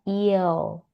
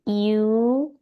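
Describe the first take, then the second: First: It is said with an o sound, like iyo. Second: It is said as a plain i-u glide. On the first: The speaker calls it right. "tapi jadinya iyo" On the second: The speaker calls it wrong. "tidak dibaca jadi iu"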